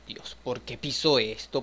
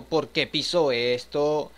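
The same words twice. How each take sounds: First: Said in the usual way. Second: Slow, louder, drawn-out mock exasperation; exasperated whine. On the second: Gamer complaining at the character for stepping on it, drawn-out whine. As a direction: stretch it out in disbelief.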